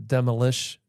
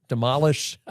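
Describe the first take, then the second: First: Said in the usual way. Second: Put-on demolish in a playful French accent, stress moved to the end. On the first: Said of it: "You're putting the intonation on the wrong syllable". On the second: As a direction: say demolish like a Frenchman, with a rising finish. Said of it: "you're adopting my French accent".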